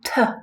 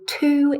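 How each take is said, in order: First: The word is said with a reduced vowel. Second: The word is said with a full vowel. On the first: "t is the weak form in a sentence" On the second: "to is the strong form"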